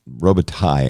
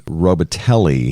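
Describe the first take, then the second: First: The surname is said with a French pronunciation. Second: The surname is said with an anglicized pronunciation. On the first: This is the name's original French form. "it's a French name, ... I think, is the correct pronunciation" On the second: This is how he seems to go by it. "he seems to go by"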